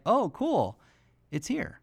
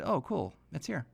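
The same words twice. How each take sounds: First: Put-on mildly excited kid. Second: Put-on calm kid. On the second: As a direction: say it like a kid who knew all along. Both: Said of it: "Like, he was really calm".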